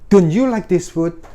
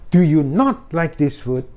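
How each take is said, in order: First: The negative is contracted and carries no stress. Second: The negative word is spoken separately and stressed. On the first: "Kalau don't you, kan nggak ada penekanannya" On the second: "Not-nya tuh bisa ditekan"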